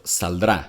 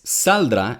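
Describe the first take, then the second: First: "saldrá" stressed on the final drá; stress on second syllable. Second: "saldrá" stressed on SAL, not on drá; stress on first syllable. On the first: Native speaker correcting the actor, second-syllable stress on "saldrá". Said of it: "instead of the second". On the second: Critic repeating the voice actor's mistake, first-syllable stress on "saldrá". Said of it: "stress in the first syllable". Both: Shown as a demonstration.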